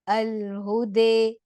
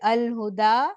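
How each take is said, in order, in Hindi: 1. अंतिम स्वर e की ओर झुका हुआ है। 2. अंतिम स्वर खुला a है। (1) "इमाला" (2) "फ़तह"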